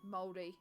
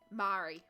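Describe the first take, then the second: First: The word is said with a Māori pronunciation. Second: The word is said with an anglicized pronunciation. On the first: The speaker calls it right. "It is Māori" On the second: The speaker calls it wrong. "I was one of those Pākehā or European people who used to say"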